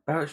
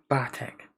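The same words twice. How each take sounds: First: Barrett, said as BARE-ett instead of Bartek; the slip Barrett, pronounced like English Barrett; wrong name reading. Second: Bartek, said BAR-tek with a hard t; corrected name. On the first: Misreading the name as Barrett while narrating. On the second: Correcting the misread name to Bartek. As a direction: give Bartek its proper Polish sound, BAR-tek. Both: Shown as a demonstration. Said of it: "I don't say Barrett".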